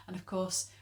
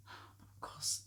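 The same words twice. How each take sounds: First: Said in the usual way. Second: Of course whispered, unvoiced. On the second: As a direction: breathe "of course" with no voice. Excuses the mother.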